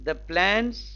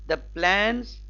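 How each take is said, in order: Both takes have the same delivery.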